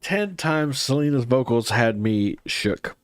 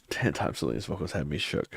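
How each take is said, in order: First: Said in the usual way. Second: Low murmured reread. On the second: Shown as a demonstration. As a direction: reread it lower and much softer, to himself. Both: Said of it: "repeated reading of chat comment".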